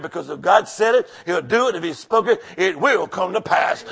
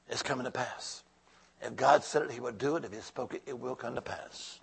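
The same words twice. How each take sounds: First: Said in the usual way. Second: Much softer, letting the words sink in; hushed repeat. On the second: Real, not acted. Pastor quietly assuring the congregation the prophecy will come true, hushed. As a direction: drop way down to a near hush. Repeating promise softly to church.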